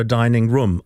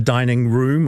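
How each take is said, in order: First: "dining room" with room like "rum"; "dining room" ending in a quick "rum"; short vowel. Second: "dining room" with a long oo in room; "dining room", room rhyming with boom; long vowel. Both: Shown as a demonstration. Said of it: "is it room or room".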